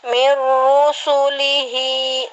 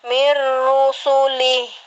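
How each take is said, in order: First: The word ends with a vowel after the h. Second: The word ends on the h, without a vowel. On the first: The speaker calls it wrong. "nggak dibaca mirusulihi" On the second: The speaker calls it right. "tapi dibaca mirusulih"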